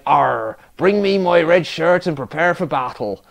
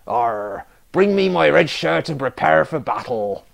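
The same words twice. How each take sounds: First: A light West Country pirate burr; captain again calls his men to battle, in a West Country pirate accent. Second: A lightly put-on pirate growl, West Country style; captain orders his crew into battle, in a hint of a pirate accent. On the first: Acted. West Country pirate accent, a touch louder. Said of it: "Apparently he's from the West Country now". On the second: Captain calls his crew to battle, lightly voiced pirate accent. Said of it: "I'm so bad at accents".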